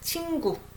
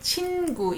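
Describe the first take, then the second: First: The nasal before the g sounds like ng. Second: The nasal before the g is a clear n. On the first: The speaker calls it right. "So it sounds like ng" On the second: The speaker calls it wrong. "You don't say 친구"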